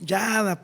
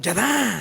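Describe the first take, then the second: First: The name is said loosely, sounding relaxed. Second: The name is said sharply, sounding angry. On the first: It is the Latin way of saying it. "como nosotros somos onda, los latinos" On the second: It is the Hebrew way of saying it. "Como que en hebreo estás enojado"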